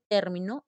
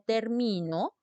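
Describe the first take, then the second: First: The stress is on the first syllable. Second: The stress is on the middle syllable. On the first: "si dice término es esdrújula" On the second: "si dice termino es grave"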